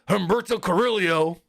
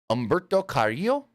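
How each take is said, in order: First: The first name begins with an H sound. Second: The first name begins without an H sound. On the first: "But Booker's over here" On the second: "Technically, it's Umberto"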